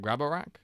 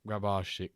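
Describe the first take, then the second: First: The name ends with a plain 'rak' sound. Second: The name ends with a 'shik' sound. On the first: The speaker calls it wrong. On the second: The speaker calls it right.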